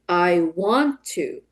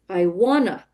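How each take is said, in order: First: Each word is said separately and fully. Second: The words are blended into a reduced form. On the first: "model the full form of the words first" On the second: "the more natural form of the lyrics"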